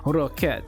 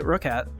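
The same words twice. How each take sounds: First: It is said with an exaggerated French accent. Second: It is said plainly, without a French accent. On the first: "You don't have to super Frenchy it up" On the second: "you can just say roquette"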